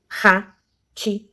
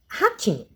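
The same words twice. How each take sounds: First: "Ratinho" split into three slow, separate syllables. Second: Said in the usual way. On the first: Shown as a demonstration. Teacher showing pupils how to separate, "Ratinho" said syllable by syllable. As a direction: say "Ratinho" with a clear pause after each syllable. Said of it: "ler a palavra e separar". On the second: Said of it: "vamos ler a palavra e separar".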